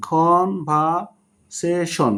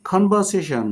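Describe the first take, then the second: First: "conversation" very slowly, as কন-ভার-সে-শন; broken into syllables. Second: Said in the usual way. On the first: Shown as a demonstration. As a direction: draw out each of the four syllables of "conversation". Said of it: "শব্দকে ভেঙে ভেঙে উচ্চারণ". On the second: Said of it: "তার মানে এখানে চারটি syllable".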